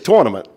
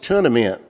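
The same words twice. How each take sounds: First: It is said in a Northeastern US accent. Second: It is said in a Southern US accent.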